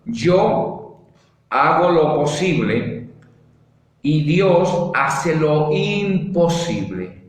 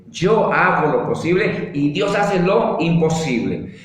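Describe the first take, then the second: First: Slow and deliberate, word by word; slow dictation. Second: Said in the usual way. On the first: Shown as a demonstration. Preacher dictating the motto slowly to the congregation. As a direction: spell it out slowly for note-taking. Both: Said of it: "Si quiere, escríbalo ahí".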